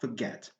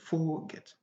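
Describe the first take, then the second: First: The stress is on the second syllable. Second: The stress is on the first syllable. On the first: The speaker calls it right. "the stress is on the second syllable" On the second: The speaker calls it wrong. "not the first one. We don't have the right to say forget"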